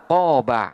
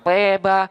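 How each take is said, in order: First: The long vowel sounds like an open a. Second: The long vowel leans toward an e sound.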